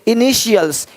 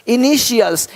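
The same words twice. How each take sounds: The two takes are said the same way.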